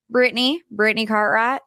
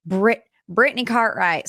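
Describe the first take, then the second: First: Southern twang, second attempt; mock Southern accent, a little more convincing; improved Southern accent. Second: Badly faked Southern accent; clumsy, botched Southern twang; horrible Southern accent. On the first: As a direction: put on a lightly Southern accent. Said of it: "That was a little bit better". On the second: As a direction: attempt a Southern accent and fumble it. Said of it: "horrible Southern accent".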